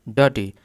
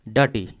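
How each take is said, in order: The two takes are said the same way.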